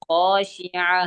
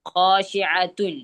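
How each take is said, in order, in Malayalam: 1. ഈ വാക്ക് നിർത്തിയ ഹ ശബ്ദത്തിലാണ് അവസാനിക്കുന്നത്. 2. ഈ വാക്ക് പൂർണ്ണമായ -atun എന്ന അവസാനത്തോടെയാണ് അവസാനിക്കുന്നത്. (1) "ഖാശിഅ അവസാനം സുക്കൂനായ ഹ ആക്കി" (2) "ഖാശിഅത്തുൻ അവസാനം താൽ അവസാനിക്കുന്നത്"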